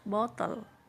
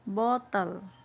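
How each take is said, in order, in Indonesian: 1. Diucapkan dengan aksen Inggris. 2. Diucapkan dengan aksen Inggris.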